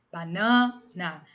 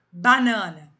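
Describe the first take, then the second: First: "banana" very slow, middle NA held, last syllable split off; stressed syllable drawn out. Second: "Banana" said whole, loud, middle syllable stressed; stress on the tonic syllable. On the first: Teacher showing which syllable of banana is tonic, slowly split and stretched. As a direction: break it up: ba-NAAN, na, slowly. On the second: Teacher giving students an example word, stressed loudly on the middle syllable. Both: Shown as a demonstration. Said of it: "a sílaba tônica é o na".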